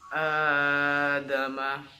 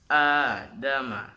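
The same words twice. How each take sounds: First: The long vowel is held beyond two beats. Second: The long vowel is held for two beats. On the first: The speaker calls it wrong. "itu kan kepanjangan melebihi dua harokat" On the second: The speaker calls it right. "yang dipanjangkan menjadi dua harokat"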